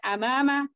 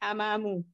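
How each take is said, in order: First: The word ends with an 'a' vowel. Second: The word ends with a 'u' vowel. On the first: The speaker calls it right. "Maka juga antum baca amama" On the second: The speaker calls it wrong. "Nggak boleh amamu"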